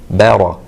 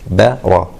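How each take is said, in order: The two takes are said the same way.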